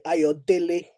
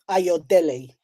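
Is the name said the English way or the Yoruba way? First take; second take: Yoruba; English. First: The name is said with a Yoruba pronunciation. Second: The name is said with an English pronunciation.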